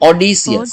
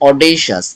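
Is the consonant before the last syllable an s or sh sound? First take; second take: s; sh. First: The middle is said with a plain s sound. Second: The middle is said with an sh sound. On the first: The speaker calls it wrong. "Pronunciation তো ভিন্ন রকম ছিল" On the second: The speaker calls it right. "আমাদের Google translate যেটা বলছে সেটা কিন্তু অডেশাস"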